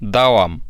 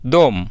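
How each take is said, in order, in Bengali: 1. শব্দটি পুরো বলা হয়, দুই আওয়াজে। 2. শব্দটি ছোট করে এক আওয়াজে বলা হয়। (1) "দাওয়াম অথবা" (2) "শর্টকাটে বলে দম"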